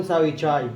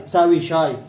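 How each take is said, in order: First: شاي said as chai, with a ch sound instead of sh; Aleppo pronunciation. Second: Said in the usual way. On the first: Shown as a demonstration. Teacher shows students how Aleppans say tea, ch sound. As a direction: say ساوي شاي the Aleppo way, tchai. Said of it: "الحلبيين يقولون". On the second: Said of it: "احضر الشاي".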